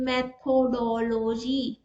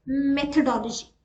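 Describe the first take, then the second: First: मेथोडोलॉजी drawn out slowly with a different, wrong sound; wrong pronunciation. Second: मेथोडोलॉजी said slowly and clearly, meth-o-do-lo-gy; correct pronunciation. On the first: Teacher showing a wrong way to say मेथोडोलॉजी. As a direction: stretch मेथोडोलॉजी into an odd variant. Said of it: "अगर मैं कोई और pronunciation use करूँ". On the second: Teacher modelling मेथोडोलॉजी correctly for students. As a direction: carefully model मेथोडोलॉजी as the right form. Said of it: "अगर मुझे बोलना है". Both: Shown as a demonstration.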